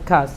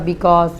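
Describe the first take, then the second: First: The word is cut to a single short syllable. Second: The word is said with both syllables fully. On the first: The speaker calls it right. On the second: The speaker calls it wrong. "not a because"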